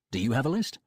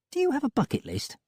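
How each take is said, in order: First: Said in the usual way. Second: High, light female voice; Molly's voice. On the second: A narrator's reading.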